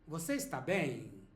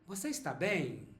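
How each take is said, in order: First: The final word is drawn out, like a question. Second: The final word is drawn out, like a question.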